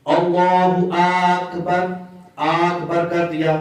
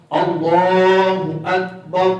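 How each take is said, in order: First: اللہ اکبر with a long drawn vowel over the alif; wrong stretched takbir. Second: Slow اللہ اکبر, full heavy la, no jolt; correct takbir. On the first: Teacher imitates prayer leaders who stretch اللہ اکبر. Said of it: "اس کو اذان میں بھی لمبا کرتے ہوئے". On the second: Teacher gives the correct takbir to students, slow. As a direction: model اللہ اکبر slowly and smoothly. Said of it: "تو اس کا درست جو ہے وہ تلفظ ہے". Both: Shown as a demonstration.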